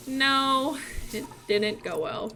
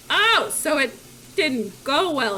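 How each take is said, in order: First: Acted glum admission. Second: Lightly raised, slow dawning reaction; acted parental realisation. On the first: Mulan confesses to parents, mildly glum. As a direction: admit it with a sinking voice. Mulan admits it went badly. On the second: Parents grasp Mulan's failure, mildly surprised. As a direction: start louder, then slow on the bad news.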